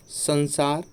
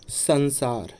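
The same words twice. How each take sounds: The two takes are said the same way.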